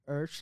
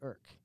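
First: The surname ends with a ch sound. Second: The surname ends with a k sound. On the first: The speaker calls it right. "urch like church" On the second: The speaker calls it wrong. "it's phonetically correct to pronounce it Khaki Irk"

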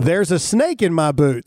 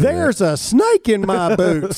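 First: It is said in his natural voice. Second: It is said imitating Woody from Toy Story.

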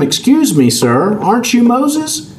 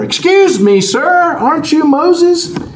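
First: It is said somewhat louder. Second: It is said loudest of all.

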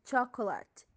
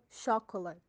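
First: The word begins with a CH sound. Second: The word begins with an SH sound. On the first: The speaker calls it right. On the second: The speaker calls it wrong.

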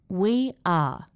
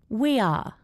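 First: The words are said slowly and separately. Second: The words are joined by a gliding Y sound. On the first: "I'm going to say it slowly" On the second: "Then I will say it with intrusion"

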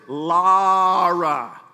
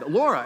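First: The name is said with a Southern pronunciation. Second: The name is said with a non-Southern pronunciation. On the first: The speaker calls it right. "it's the Southern pronunciation" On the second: The speaker calls it wrong. "I evidently was saying her name wrong"

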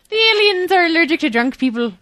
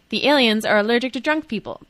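First: It is said in an imitated Irish accent. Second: It is said in the speaker's ordinary accent. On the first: "That wasn't so bad" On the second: "I should have done that in an Irish accent"

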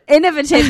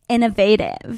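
First: It is said in the speaker's own non-American accent. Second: It is said in an imitated American accent. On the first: The speaker calls it right. "So I say innovative" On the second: The speaker calls it wrong. "and they say innovative"

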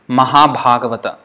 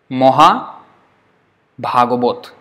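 First: The first syllable is said as 'ma'. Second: The first syllable is said as 'mo'. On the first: This is the Sanskrit way of saying it. "In Sanskrit it will be Mahabhagavata" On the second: This is the Bengali way of saying it. "But in Bengali they would say Moha"

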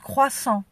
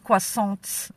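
First: It is said with a French pronunciation. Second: It is said with an English-style pronunciation. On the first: The speaker calls it right. "it's croissant, you guys" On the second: The speaker calls it wrong. "It's not croissants"

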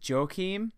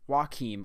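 First: The name begins with a J sound. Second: The name begins with a W sound. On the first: "like Joachim Noah Anderson" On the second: "like Joaquin Phoenix"

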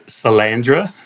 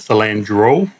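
First: The name ends with an 'ah' vowel. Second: The name ends with an 'oh' vowel. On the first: The speaker calls it right. "his last name is Salandra" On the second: The speaker calls it wrong. "You pronounced it Salandro"

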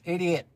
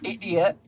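First: It is said in the speaker's natural accent. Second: It is said in an imitated foreign accent. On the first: This is the normal way to say it. The speaker calls it right. "it's idiot" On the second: This is the partner's annoying accent. The speaker calls it wrong. "It's not idiot"

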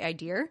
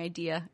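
First: It is said New Hampshire style, with an added R. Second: It is said without an added R at the end.

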